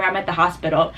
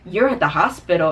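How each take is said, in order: First: Said in the usual way. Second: Imitating his clueless question; mildly mocking puzzlement on "hospital"; baffled disbelief. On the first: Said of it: "I was just like". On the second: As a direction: act as if "hospital" is a brand-new word. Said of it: "said the word hospital like he had never, ever heard".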